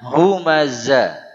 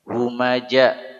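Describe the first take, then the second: First: The middle consonant is a 'z' sound. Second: The middle consonant is a 'j' sound. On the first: The speaker calls it right. "Hurufnya zai" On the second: The speaker calls it wrong. "mengganti huruf zai kepada huruf jim ... Salah besar"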